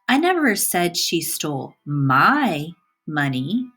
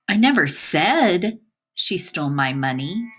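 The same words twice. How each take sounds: First: The word "my" carries the stress. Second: The word "said" carries the stress. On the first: Somebody else's money was stolen. "the emphasis is on my" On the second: It was conveyed in some other way. "By emphasizing the word said"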